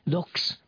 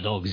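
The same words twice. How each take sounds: First: The word ends with a hissing s sound. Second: The word ends with a buzzing z sound. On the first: "vegyük az S többes számragot" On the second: "tehát Z lesz belőle"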